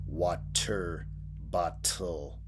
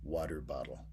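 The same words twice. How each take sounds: First: The T sounds are crisp and clearly released. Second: The T sounds are soft, like a muted D. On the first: The speaker calls it wrong. "you're not actually pronouncing it as a crisp sounding T. You're not saying water bottle" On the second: The speaker calls it right. "It kind of has a muted D sound"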